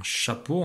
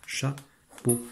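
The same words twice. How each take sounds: First: Said in the usual way. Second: "Chapeau" as cha, pause, peau; split into syllables. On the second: Shown as a demonstration. Teacher showing which letters are read together, syllable by syllable. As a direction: leave a clear gap inside "Chapeau". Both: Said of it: "on lit chat ensemble et peau".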